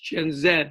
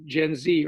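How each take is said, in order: First: The letter is said as zed. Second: The letter is said as zee.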